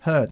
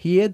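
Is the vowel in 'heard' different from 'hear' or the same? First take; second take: different; same. First: The vowel sounds different from 'hear'. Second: The vowel sounds the same as in 'hear'. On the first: The speaker calls it right. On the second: The speaker calls it wrong. "el pasado del verbo to hear no se pronuncia igual que hear. No decimos heard"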